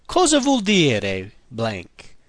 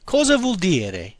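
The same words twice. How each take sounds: First: Cosa vuol dire blank? slow, KO-za vwol DEE-reh; slow Italian demo. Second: Cosa vuol dire? at normal speed, KO-za vwol DEE-reh; Italian pronunciation. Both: Shown as a demonstration. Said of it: "practice sounding like an Italian".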